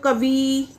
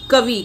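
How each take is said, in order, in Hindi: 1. अंतिम स्वर बड़ा है। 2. अंतिम स्वर छोटा है। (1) "पर इसको जब बोलते हैं तो कवि करके बोलते हैं" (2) "कवि में छोटी की मात्रा आती है"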